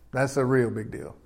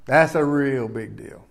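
First: Dropped to a much softer repeat; quiet echo. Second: Slower and softer, weighting "That's"; slow emphatic. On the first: Preacher echoing his point to the church, hushed. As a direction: say it again almost under the breath. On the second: Preacher stressing to the church how big skin color is, slow. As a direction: let it sink in slowly. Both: Real, not acted.

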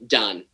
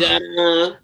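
First: Said in the usual way. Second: Celebrating quitting the job; proud declaration; emphatic done. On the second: Real, not acted. Repeated done contrast.

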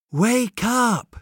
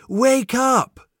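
First: A high call to rouse someone; calling wake up. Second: Higher and louder second call to wake him. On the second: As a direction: call again, more urgently. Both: Acted. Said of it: "he hears softly".

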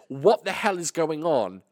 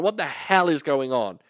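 First: Slow mock outraged mum; mum's outburst. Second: Mild mock outraged mum; mum's outburst. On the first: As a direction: drag it out like a stern mum. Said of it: "When she says". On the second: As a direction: lightly voice the startled mum asking what's going on. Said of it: "She went".

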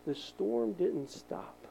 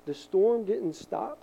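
First: The storm didn't stop said slow and soft, each word spaced; hushed, drawn-out The storm didn't stop; slow, quiet emphasis. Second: The storm didn't stop said slow but fuller and firmer; steady, stronger The storm didn't stop; firmer slow repeat. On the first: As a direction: lay The storm didn't stop down gently and deliberately. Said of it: "repeated line, first take". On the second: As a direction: restate The storm didn't stop with more weight. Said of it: "repeated line, second take". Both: Shown as a demonstration.

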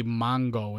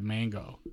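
First: Mongo, with an o sound in the first syllable; mongo for mango. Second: Said in the usual way. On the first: Retold or imitated. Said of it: "my wife would say "mongo" instead of "mango". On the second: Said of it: "instead of".

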